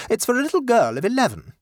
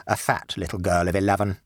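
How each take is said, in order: First: High, quick and proper, stress on little; the mother informing the shop assistant, high and brisk; lady's polite request. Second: Low, dry and sulky correction; a rude boy adding a jibe; boy's sly addition. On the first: Mother telling the assistant, high and proper. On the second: Victor correcting his mother, low and dry. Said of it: "added Victor by way of supplementary information". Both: Acted.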